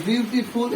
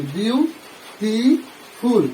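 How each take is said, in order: First: Said in the usual way. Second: "বিউটিফুল" very slowly in three separate beats; syllable by syllable. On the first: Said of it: "এটা একটা শব্দ বা word". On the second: Shown as a demonstration. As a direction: split "বিউটিফুল" as বিউ, টি, ফুল with clear pauses. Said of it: "বিউটিফুল শব্দটাকে আমরা তিনবারে উচ্চারণ করছি". ("বিউটিফুল" ধীরে তিনবারে ভেঙে উচ্চারণ)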